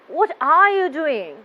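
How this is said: The voice sounds annoyed. The speaker dislikes what is happening. "The listener get the idea that I am annoyed"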